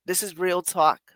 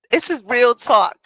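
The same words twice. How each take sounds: First: Said in the usual way. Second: "This is real talk" pitched high and loud throughout; emphatic repeat. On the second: Real, not acted.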